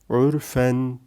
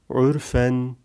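No difference in how they are said.

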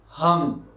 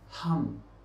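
First: The initial h sound is voiced. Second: The initial h sound is voiceless.

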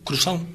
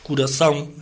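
First: Southern Portuguese accent, first vowel dropped. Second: Northern Portuguese accent, first vowel kept.

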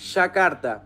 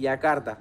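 First: It is said in a Buenos Aires Spanish accent. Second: It is said in a non-Buenos Aires Spanish accent. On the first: "los porteños decimos Yakarta" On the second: "en otros países dicen Yakarta. Dicen así"

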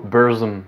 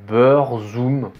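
First: The name is said with an English pronunciation. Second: The name is said with a French pronunciation. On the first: "les Anglais, ils disent beaucoup Burzum" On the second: "si on francise ça, la prononciation la plus proche"

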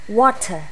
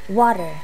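Both takes have the same delivery.

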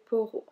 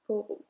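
Both takes have the same delivery.

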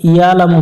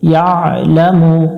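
First: The 'ain sound is not pressed from the throat. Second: The 'ain sound is pressed from the throat. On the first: The speaker calls it wrong. "ইয়ালামু পড়া যাবে না" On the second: The speaker calls it right. "ইয়া আইন এটা গলার মধ্য থেকে একটু চেপে উচ্চারণ করবো"

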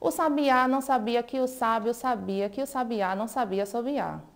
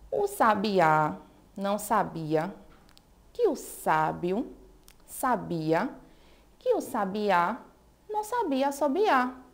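First: The sentence is spoken faster. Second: The sentence is spoken slowly. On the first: "Agora vamos ver se acelerando a gente também consegue" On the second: "Bem fácil também"

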